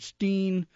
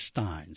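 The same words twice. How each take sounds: First: Steen with a long ee; STEEN pronunciation. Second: Stein with an eye vowel; STINE pronunciation. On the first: Announcer explaining the composer's younger usage, Steen with long ee. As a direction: say "Steen" to rhyme with seen. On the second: Announcer explaining the composer's later usage, Stein rhyming with fine. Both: Shown as a demonstration. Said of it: "he pronounced it both ways".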